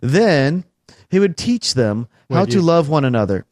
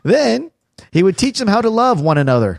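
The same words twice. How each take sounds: First: It is said in the speaker's ordinary voice. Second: It is said in a put-on imitation voice. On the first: "you're not doing it in the voice" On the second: "You can't do a high-pitched girl, woman's voice"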